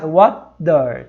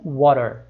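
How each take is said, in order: First: "water" broken in two as "wa-der", with a clear D; split with a D. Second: "water" run together, D cut to a quick tap. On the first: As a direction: say "water" in two pieces, D in the middle. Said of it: "como se você cortasse". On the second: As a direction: say "water" as "wa-rer", American style. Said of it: "você corta esse D". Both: Shown as a demonstration.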